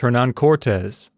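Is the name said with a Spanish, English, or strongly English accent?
strongly English. The name is said with a strongly English accent. It sounds even more careless. "or worse"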